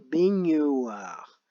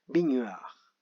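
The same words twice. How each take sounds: First: The word is said slowly, with a faint gn sound. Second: The word is said quickly, the gn sounding like n. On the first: "si on y va tout doucement" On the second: "quand on va vite, on a l'impression d'entendre le son ne"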